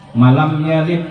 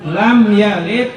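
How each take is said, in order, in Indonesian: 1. Ada bunyi 'ma' tambahan sebelum 'lam'. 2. Frasa langsung dimulai dengan 'lam'. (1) "ini bacaan yang salah" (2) "Yang boleh itu"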